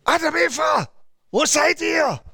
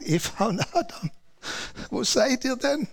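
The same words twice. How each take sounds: First: High, shouted angry call; furious divine shout; angry God calling. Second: Softer, tender fatherly call; a father softly looking for his children; gentle loving call. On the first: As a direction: roar it out like a wrathful God. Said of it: "und er ist zornig". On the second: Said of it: "Gott schrie sie nicht an". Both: Retold or imitated.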